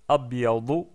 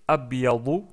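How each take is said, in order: No difference in how they are said.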